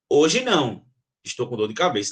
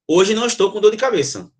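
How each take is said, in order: First: There is a pause after "hoje não". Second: It is said straight through with no pause. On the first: She refuses today because she has a headache. "Com vírgula" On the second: She is saying she has no headache today. "eu falo sem a pausa"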